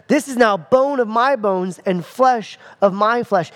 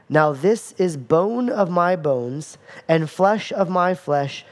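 First: "This" hit first and strongest, the rest flowing on; stress on This. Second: Slow, even reading of the verse; unhurried Bible reading; slow scripture read. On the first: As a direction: lean hard on "This" at the start. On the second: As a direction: read it out slowly, no word punched. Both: Shown as a demonstration. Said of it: "But notice it says".

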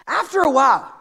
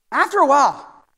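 No difference in how they are said.

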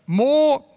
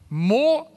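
First: "more" again, louder and pushed down; emphatic repeat. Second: Said in the usual way. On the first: Real, not acted. Pastor voicing Gideon's doubt, stressing the word more. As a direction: lean hard on the second "more".

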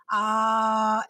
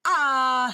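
First: Smooth, flowing held "ah"; "ah" flowing out freely on the breath; easy onset. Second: Abrupt, loud punched "ah"; "ah" with a hard, forceful onset; hard glottal attack. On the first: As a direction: release the air with the voice on "ah". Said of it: "because you are releasing your air". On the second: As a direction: slam into the vowel "ah" from a closed throat. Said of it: "you heard that hard glottal attack". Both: Shown as a demonstration.

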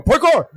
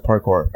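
First: High-pitched shout of PARKOUR; yelled catchphrase. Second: Said in the usual way. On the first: Shown as a demonstration. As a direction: yell PARKOUR like a battle cry. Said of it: "You just gotta yell it".

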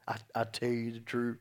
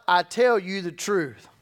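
First: Lower, softer, wry aside; wry mock quote. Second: Said in the usual way. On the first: Shown as a demonstration. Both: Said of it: "Isn't that funny that Jesus had to say that?".

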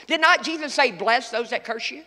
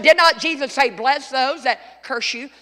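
First: Said in the usual way. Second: Preacher driving the question home; louder emphatic repeat. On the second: Shown as a demonstration. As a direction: say it again and make them hear it. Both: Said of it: "I said".

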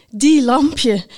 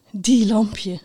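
First: Louder, higher, voiced exclamation. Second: Hushed, fond murmur; to oneself. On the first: Knight repeats it while cycling off, out loud. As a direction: say it aloud with fond emphasis. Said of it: "nog eens hardop". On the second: Knight shakes her head fondly, saying it to herself. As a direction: half-whisper it to yourself. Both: A narrator's reading.

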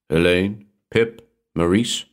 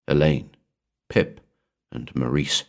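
First: ELAINE, PIP, MAURICE each lifted in a rising question; prompting. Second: Said in the usual way. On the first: A narrator's reading. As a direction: prompt with "Elaine, Pip, Maurice?", slowing, each name left hanging upward. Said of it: "the Shadow Man prompted".

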